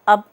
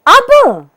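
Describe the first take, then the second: First: The word is said in a plain, neutral way. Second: The word is said as a question. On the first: Tell me what to do now. "सामान्य रूप से" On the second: The speaker is asking a question. "प्रश्नबोधक रूप में"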